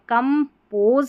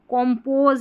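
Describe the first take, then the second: First: The first vowel is a short 'uh' sound. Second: The first vowel is an open 'aw' sound. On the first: The speaker calls it right. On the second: The speaker calls it wrong.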